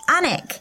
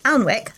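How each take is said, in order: First: The L and W sounds are silent. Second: The L and W sounds are pronounced. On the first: The speaker calls it right. "is actually pronounced Anik" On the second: The speaker calls it wrong. "as I would have said it"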